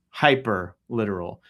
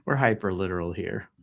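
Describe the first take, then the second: First: "Hyper" punched, with "literal" left light; stress on hyper. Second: Said in the usual way. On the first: Shown as a demonstration. Host repeating it, stress on "Hyper". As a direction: lean hard on "Hyper". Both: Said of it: "Emphasis on hyper".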